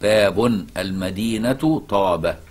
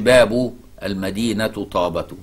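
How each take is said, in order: First: The first word ends with an added n sound. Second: The first word has no added n sound. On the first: The phrase is a full sentence: the gate of the city is Taba. The speaker calls it right. "يعني مبتدأ وخبر، وتنون باب" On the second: The first two words form a possessive phrase, the city's gate. The speaker calls it wrong. "ما تقولش باب المدينة طابة، ما ينفع"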